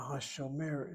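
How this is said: The voice rises in pitch like a question. It asks a question. "But if I raise my voice, a Hashomer is a question"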